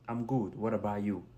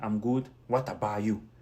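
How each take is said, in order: First: The T in 'what about' is soft. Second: The T in 'what about' is hard. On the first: The speaker calls it right. "au lieu de dire" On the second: The speaker calls it wrong. "Le T là est trop fort pour les Américains"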